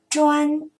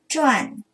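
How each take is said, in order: First: The syllable has a high level tone. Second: The syllable has a sharply falling tone. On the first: "一声专" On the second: "四声转"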